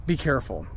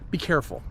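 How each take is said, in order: Both takes have the same delivery.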